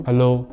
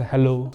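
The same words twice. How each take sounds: First: Hello pushed out loud; firm, loud test hello; louder hello. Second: Hello, raised just a little; slightly raised voice. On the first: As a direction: raise the voice for a sound test. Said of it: "थोड़ा और ज़ोर से अगर बोलूँ". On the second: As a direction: modest loudness demo. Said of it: "थोड़ा अगर मैं तेज बोलूँ". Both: Shown as a demonstration.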